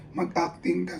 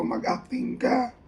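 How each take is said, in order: First: Said in the usual way. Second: Slow, higher-pitched call; mock yell. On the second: Sandro yelling at him to act, slow mock yell. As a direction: drag it out like a director yelling. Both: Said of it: "sumisigaw si Sandro".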